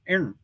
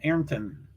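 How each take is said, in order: First: Part of the name is swallowed and reduced. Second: Both syllables of the name are fully said.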